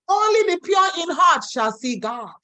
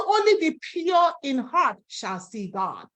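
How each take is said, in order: First: Only the pure in heart shall see God shouted up high; emphatic shout. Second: Said in the usual way. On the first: Shown as a demonstration. Preacher repeats the verse to the congregation, shouting it out. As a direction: proclaim it to the whole church. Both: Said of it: "repeats line for emphasis".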